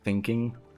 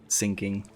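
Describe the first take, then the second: First: The th is a soft English th sound. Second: The th is replaced by a German-accented sound. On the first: The speaker calls it right. "instead of thinking" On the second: The speaker calls it wrong. "they uh, really like teach you thinking"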